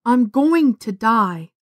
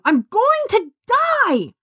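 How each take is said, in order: First: Said out loud. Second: High, slow despairing scream. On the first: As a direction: let the words fall slowly. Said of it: "She said it out loud". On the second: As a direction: scream it at the chasm. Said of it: "she screamed". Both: A narrator's reading.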